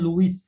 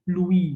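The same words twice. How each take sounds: First: The name is read the way it is written. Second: The name is said the way it's really pronounced. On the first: "Penulisannya Louis gitu kan" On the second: "tapi pembacaannya Louis gitu loh"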